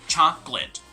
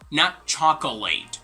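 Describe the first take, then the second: First: The word is said with two syllables. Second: The word is said with three syllables. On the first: The speaker calls it right. "Like there are two syllables" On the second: The speaker calls it wrong. "you're actually adding in an extra syllable, which is not supposed to be there"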